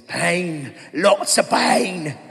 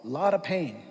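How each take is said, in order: First: Slow, drawn-out line through a laugh; milk it like the little guy from the film; slow comic impression of a movie character; movie quote impression. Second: Said in the usual way. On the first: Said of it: "seen A Knight's Tale ... that little dude". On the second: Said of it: "he says".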